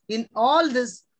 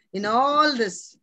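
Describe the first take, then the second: First: "all" punched loud, phrase kept at normal pace; stress on all. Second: "In all this" drawn out slowly, "all" loud and long; slow emphasis. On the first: Preacher to congregation, loud punch on all. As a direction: hit "all" hard and move on. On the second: Preacher stressing Job's trial, slow and loud on all. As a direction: stretch "all" slowly and firmly. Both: Shown as a demonstration. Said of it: "what I want to emphasize".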